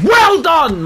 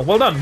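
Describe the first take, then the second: First: Sarcastic. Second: Said in the usual way. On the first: Real, not acted. Sarcastic repeat at teammate.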